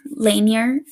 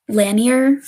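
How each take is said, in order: First: "Lanier" as LANE-yer, long A; alternative pronunciation. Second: "Lanier" as LAN-yer, short A; tentative pronunciation. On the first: Host tries the name another way, "Lanier" as LANE-yer. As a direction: say "Lanier" starting like "lane", rising. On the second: Host guesses at the lake's name, "Lanier" as LAN-yer. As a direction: say "Lanier" with the A of "land". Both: Shown as a demonstration. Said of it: "I hope it's Lanier".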